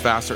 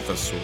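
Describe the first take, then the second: First: The name is pronounced in a plain American way. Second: The name is pronounced in a French way. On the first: The speaker calls it right. "My name's [name]" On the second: The speaker calls it wrong. "It's not Vasseur. I'm not some dirty French guy"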